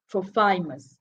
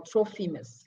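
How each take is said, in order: First: "Trophimus" with a long eye in the middle, tro-FY-mus; alternative pronunciation. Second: "Trophimus" with an ee in the middle, TRO-fee-mus; preferred pronunciation. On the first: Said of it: "Trophimus or Trophimus". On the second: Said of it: "Let me say Trophimus". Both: Shown as a demonstration.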